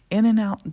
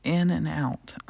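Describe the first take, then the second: First: "In and out" said higher and louder, each word even; stressed in and out. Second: Said in the usual way. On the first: Shown as a demonstration. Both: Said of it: "Don't touch the side".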